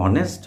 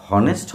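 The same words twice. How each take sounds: First: অনেস্ট with no h, starting straight on the vowel; অনেস্ট said with a silent h, opening on the vowel; right pronunciation, silent h. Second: হনেস্ট with a clear h sound at the start; হনেস্ট spoken with an audible h; wrong pronunciation with h. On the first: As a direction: drop the h: অনেস্ট. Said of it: "ওটাকে অনেস্ট বলি". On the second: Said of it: "আমরা কিন্তু হনেস্ট বলি না". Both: Shown as a demonstration.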